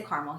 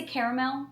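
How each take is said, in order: First: Caramel in two syllables, CAR-mel; caramel pronounced CAR-mul. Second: Caramel in three syllables, CARE-a-mel; caramel pronounced CARE-uh-mel. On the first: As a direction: drop the middle a in caramel. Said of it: "We say caramel here". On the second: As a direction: say caramel with the middle a sounded. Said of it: "how to pronounce certain words". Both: Shown as a demonstration.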